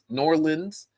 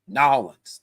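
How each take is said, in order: First: The name is said in full, all syllables. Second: The name is squeezed into two short syllables. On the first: The speaker calls it wrong. "That not New Orleans" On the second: The speaker calls it right. "That's how you do it"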